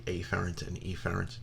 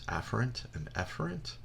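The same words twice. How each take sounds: First: The two words begin with clearly different vowels. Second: The two words begin with nearly identical vowels. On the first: The words are kept apart to avoid confusion. "many instructors will just say afferent and efferent to avoid any type of confusion" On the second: This is the standard pronunciation. "the correct way to pronounce this is"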